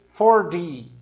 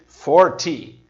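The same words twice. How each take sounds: First: The middle consonant sounds like a D. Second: The middle consonant is a clear T. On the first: "os americanos dizem forty. Parecido o som do, da marca de carro" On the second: "enquanto os britânicos dizem forty"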